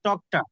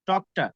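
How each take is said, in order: No difference in how they are said.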